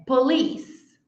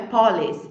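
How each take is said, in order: First: Police as puh-LEES, long final syllable; second-syllable stress. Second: Police wrongly as POL-ees, open o stressed; mistaken first-syllable stress. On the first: Teacher modelling for students, police stressed at the end. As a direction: stretch the end of police slowly. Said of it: "é police". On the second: Teacher showing what not to say, mistaken police. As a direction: hit the front of police. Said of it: "Nós falamos, não é police". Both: Shown as a demonstration.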